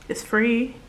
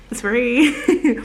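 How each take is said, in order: First: Said in the usual way. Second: "It's free" louder and higher, with "free" drawn out; playful insistence. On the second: Pretend. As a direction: sing out "free" in "It's free" as a jokey plug. Repeats plug playfully, then laughs.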